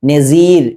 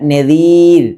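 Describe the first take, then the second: First: The middle consonant is a hissing s sound. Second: The middle consonant is a soft dh sound. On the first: The speaker calls it wrong. "ദാ പല ആളുകളും സ എന്ന് ഉച്ചരിക്കുക" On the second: The speaker calls it right. "ഇതാണ് യഥാർത്ഥ മഖ്റജ്"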